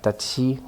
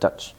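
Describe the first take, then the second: First: The word ends with an added vowel sound. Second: The word ends cleanly on the consonant. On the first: The speaker calls it wrong. "Not Dutchie, like in Korean" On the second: The speaker calls it right. "but Dutch"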